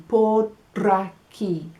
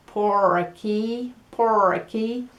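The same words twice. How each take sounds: First: Por aquí said slowly, the r tapped like a quick d; slow Spanish por aquí with a tapped r; Spanish pronunciation. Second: Por aquí with a hard American R; an American saying por aquí; American accent. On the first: Teacher models the correct Spanish por aquí. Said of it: "So we're gonna try to say por aquí". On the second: Teacher imitates Americans saying por aquí. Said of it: "I'm gonna try and imitar los estadounidenses". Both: Shown as a demonstration.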